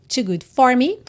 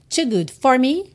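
The two takes are said the same way.

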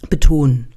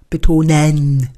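First: The end of the word is swallowed. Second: Every sound of the word is overemphasized. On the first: "Jetzt hättest du nicht bis zu Ende gesprochen" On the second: "Jetzt hast du übertrieben"

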